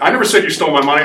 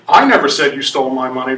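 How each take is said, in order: First: The stress is on "money". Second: The stress is on "I".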